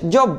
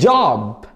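First: The vowel is a short rounded 'o'. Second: The vowel is a long open 'ah'. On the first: The speaker calls it wrong. "كلمة وظيفة ما اسمهاش job" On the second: The speaker calls it right. "اسمها ايه؟ بص بص بص بص"

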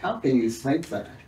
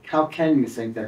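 First: It sounds shocked and appalled. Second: It sounds genuinely curious and open.

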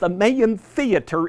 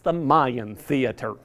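First: Mayan is said with the local Denver pronunciation. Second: Mayan is said with the newcomers' pronunciation. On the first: The speaker is a longtime Denver person. The speaker calls it right. "it is the Mayan Theater in Denver pronunciation" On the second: The speaker is new to Denver. The speaker calls it wrong. "The newcomers think it's the Mayan Theater"

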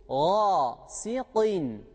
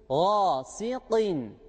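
The two takes are said the same way.

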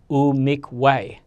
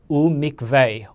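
First: It is said in the older pronunciation. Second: It is said in the modern pronunciation.

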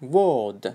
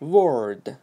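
First: British accent, with the r not pronounced. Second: American accent, with the r pronounced. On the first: "British Englishda word. Word, ya'ni r ni o'qimaydi" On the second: "In American Englishda word"

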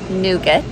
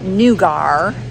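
First: The word is said with an American pronunciation. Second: The word is said with a British pronunciation. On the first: "Americans pronounce it" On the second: "Brits pronounce it"

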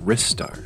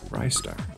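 First: The first syllable sounds like 'rih'. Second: The first syllable sounds like 'rye'. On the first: This is the other person's pronunciation. The speaker calls it right. "you call it Ristar" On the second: This is the speaker's own habitual pronunciation. The speaker calls it wrong. "I always called it Rystar"

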